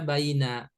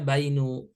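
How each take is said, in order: First: The word ends in an a vowel. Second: The word ends in a u vowel. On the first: "Gak boleh dibaca baina" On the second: "gak boleh dibaca bainu"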